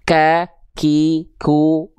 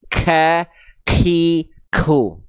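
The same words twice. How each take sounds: First: The k is released with a light puff of breath. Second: The k is released with a heavy, excessive breath. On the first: The speaker calls it right. "Natural aja, cukup percikan" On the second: The speaker calls it wrong. "Becek itu dilafalkan begini"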